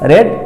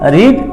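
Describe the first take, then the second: First: The vowel is a short 'eh' sound. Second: The vowel is a long 'ee' sound. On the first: It is the past tense form. "বানান এক কিন্তু উচ্চারণটা আলাদা" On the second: It is the present tense form. "রিডের present form রিড"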